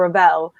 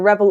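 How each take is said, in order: First: The middle consonant is a v sound. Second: The middle consonant is a b sound. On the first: This is how the men of the family say it. "only the boys say Revel in my family" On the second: This is how the women of the family say it. "all the girls say Rebel"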